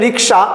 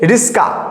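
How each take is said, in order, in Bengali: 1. মাঝের যুগ্মব্যঞ্জনটি ks হিসেবে উচ্চারিত হয়। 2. মাঝের যুগ্মব্যঞ্জনটি sk হিসেবে উচ্চারিত হয়। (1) "কথাটা হচ্ছে রিক্সা" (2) "তো উচ্চারণ হচ্ছে রিস্কা"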